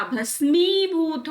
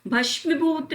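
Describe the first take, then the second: First: भस्मीभूत said slowly "bhas-mee-bhoot"; plain s and long "mee" in भस्मीभूत; correct middle. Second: भस्मीभूत said "bhashmi-bhoot"; sh and a short i in भस्मीभूत; wrong middle. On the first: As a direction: stretch the "ee" of भस्मीभूत. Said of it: "भस्मीभूत होता है". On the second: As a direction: hurry through "mi" in भस्मीभूत. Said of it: "भस्मीभूत नहीं होता". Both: Shown as a demonstration.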